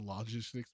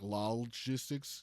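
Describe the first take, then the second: First: It is said as the ordinary word. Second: It begins with an extra 'lol' syllable. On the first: It is the natural way to say the name. The speaker calls it right. "So logistics makes way more sense" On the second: It follows the literal spelling of the name. The speaker calls it wrong. "the technical pr- pronunciation should be like logistics, but that sounds horrible"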